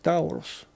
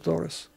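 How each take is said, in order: First: The first syllable has an 'au' diphthong. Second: The first syllable has a plain 'o' vowel. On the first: The name is read as it is spelled. The speaker calls it wrong. "иногда, наверное, его читают как Таурус" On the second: The name is said the English way. The speaker calls it right. "произносится по-английски Торос"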